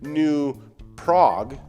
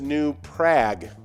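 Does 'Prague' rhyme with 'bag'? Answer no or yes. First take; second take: no; yes. First: Prague does not rhyme with bag. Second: Prague rhymes with bag. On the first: The speaker calls it wrong. "The common mispronunciation is New Prague" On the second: The speaker calls it right. "the actual pronunciation is New Prague. ... rhymes with bag"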